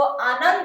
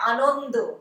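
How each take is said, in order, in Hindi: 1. यह हिंदी उच्चारण में बोला गया है। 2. यह बंगाली उच्चारण में बोला गया है। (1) "आप लोग जिसको आनंद बोलते हैं" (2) "उसको हम लोग बोलते हैं"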